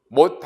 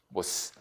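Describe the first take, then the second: First: The final consonant is a fully closed stop. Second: The final consonant ends with a hissing release. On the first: The speaker calls it wrong. "못 하지 않고" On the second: The speaker calls it right. "못스 하고 들치는 소리였을 것이다"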